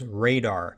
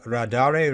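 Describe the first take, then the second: First: The name sounds exactly like the word radar. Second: The name has an extra final syllable after radar. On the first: This is how most people say the name. "assume and pronounce the toolkit's name as Radar" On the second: This is how the toolkit's author says the name. "the author of the toolkit calls it Radare"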